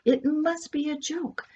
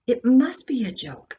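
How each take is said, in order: First: Higher-pitched, more desperate repetition; higher anxious repeat. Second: A touch of rising panic, telling herself; half-convinced self-reassurance; mild disbelief. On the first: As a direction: repeat it higher, clinging to the idea. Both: Acted. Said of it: "Andrea repeated this over and over".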